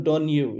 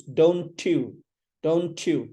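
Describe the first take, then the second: First: Don't you as don-you, with the t dropped; "don't you" as don yoo; unlinked don't you. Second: Don't you as dohn-CHOO, t and y joined; "don't you" with a 'ch' link. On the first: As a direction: say don't you wrongly, a plain y after n. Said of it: "It's not don't you". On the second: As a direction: say don't you slowly, blending t into y. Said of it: "T N Y together". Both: Shown as a demonstration.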